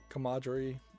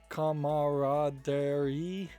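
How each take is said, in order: First: It is said in a plain English way. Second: It is spelled out in Japanese-like even syllables. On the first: "how I would normally pronounce it" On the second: "makes me want to mispronounce it, almost like a Japanese word"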